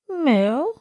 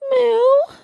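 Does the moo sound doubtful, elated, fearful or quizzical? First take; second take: doubtful; fearful. First: The moo sounds doubtful. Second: The moo sounds fearful.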